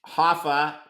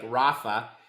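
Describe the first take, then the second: First: The name begins with a breathy H sound. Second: The name begins with an English R sound. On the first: "His real name is Hoffa" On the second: "if you were to pronounce it in English like Rafa"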